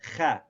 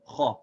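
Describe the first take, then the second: First: The vowel after the consonant sounds light and thin. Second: The vowel after the consonant sounds full and heavy. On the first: The speaker calls it wrong. "we don't say kha. See, that would be light" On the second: The speaker calls it right. "we say it full or heavy. We say kha"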